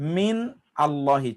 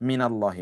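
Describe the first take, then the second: First: 'Min' is said separately before 'Allahi'. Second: 'Min' links to 'Allahi' with an added vowel. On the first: This is the underlying form of the words. "মিন আল্লাহি ছিল" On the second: This is how it sounds when read connected. "মিলিয়ে পড়লে এমন হয়"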